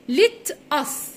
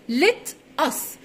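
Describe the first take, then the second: First: It is said as two separate words. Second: The same.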